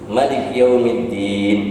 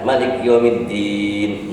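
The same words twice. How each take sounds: First: The final vowel is held about two counts. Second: The final vowel is held about six counts. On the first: "dua harkat" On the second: "enam harkat"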